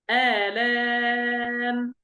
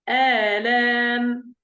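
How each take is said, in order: First: The final long vowel is held moderately long. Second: The final long vowel is held briefly.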